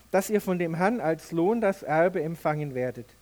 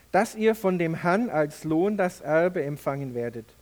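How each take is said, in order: No difference in how they are said.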